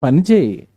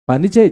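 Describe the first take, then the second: First: Firm command with falling tune. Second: పని చేయి repeated louder and higher with a rise; louder command. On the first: Pastor ordering the women to work, firm. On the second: Pastor repeating the order to the women, louder. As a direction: hit పని చేయి harder the second time. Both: Acted. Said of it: "పని మొదలుపెట్టు".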